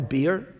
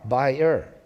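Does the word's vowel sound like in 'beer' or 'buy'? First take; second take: beer; buy. First: The word rhymes with 'here'. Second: The word rhymes with 'fire'. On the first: "I think Americans pronounce it the beer" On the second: "It's a B I E R, buyer"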